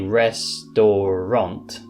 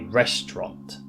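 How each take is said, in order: First: Every syllable is pronounced fully. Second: A middle syllable is cut out. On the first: The speaker calls it wrong. "We don't say restaurant" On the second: The speaker calls it right. "we just say restaurant"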